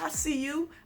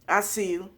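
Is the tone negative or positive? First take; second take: positive; negative. First: It sounds warm and approving. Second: It sounds dismissive and judging. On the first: The speaker is impressed and supportive. "There's nosiness in a good way" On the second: The speaker thinks they could do it better. "There's nosy in a negative way"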